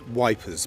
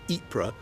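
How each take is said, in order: First: The name is said starting with a W sound. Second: The name is said without a W sound. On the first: This is how the soldiers said the name. "the Tommies, pronounced as Wipers" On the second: This is the town's proper name. "the Belgian town of Ypres"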